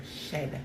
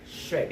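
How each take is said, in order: First: "Shed" said without the r, softly; unsure pronunciation. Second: "Shred" with an r after the sh; corrected pronunciation. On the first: Streamer trying out a word, "Shed" with no r. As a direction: try "Shed" quietly, sh straight into the vowel. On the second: Streamer correcting own word, "Shred" with the r sounded. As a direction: put the r into "Shred", sh-r-ed. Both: Real, not acted. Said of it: "Is it shred?".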